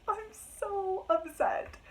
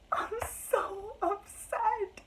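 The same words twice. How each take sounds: First: High, slow whimper; a high, slow complaint about the book; upset whine. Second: High, slow moan of dismay; a slow, high lament about the ending; drawn-out upset whine. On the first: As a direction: wail it once more, a bit quicker. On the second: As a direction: stretch it out, wounded. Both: Real, not acted.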